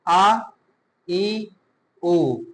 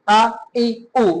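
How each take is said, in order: First: The vowels are even and of moderate length. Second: The vowels are cut short with a jerk. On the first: The speaker calls it right. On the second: The speaker calls it wrong.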